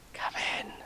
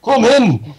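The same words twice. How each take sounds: First: Soft, voiceless whisper. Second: Loud, high Scottish call; Scottish accent. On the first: Hiding from the postman by the wall, whispered. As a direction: whisper the invitation under your breath. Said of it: "you could whisper". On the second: Calling the postman inside, Scottish accent. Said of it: "No, Scottish". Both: Acted.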